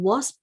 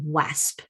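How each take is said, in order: First: The vowel sounds like the one in 'was'. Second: The vowel sounds like the one in 'clasp'. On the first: The speaker calls it right. "instead of reading wasp" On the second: The speaker calls it wrong. "decode the word wasp to rhyme with clasp"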